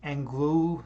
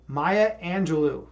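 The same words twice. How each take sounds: First: "Angelou" said as ANG-loo, hard g, middle vowel dropped; tentative "Angelou" with a hard g, like ANG-loo; unsure first try. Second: Slow, deliberate "Maya Angelou", AN-juh-loo; careful correct try. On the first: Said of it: "is that pronounced". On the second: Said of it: "so I did pronounce it right". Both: Shown as a demonstration.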